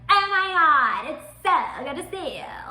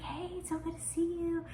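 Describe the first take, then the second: First: It is said loudly and over-excitedly. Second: It is said quietly and calmly.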